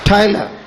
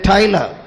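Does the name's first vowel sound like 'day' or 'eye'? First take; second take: eye; eye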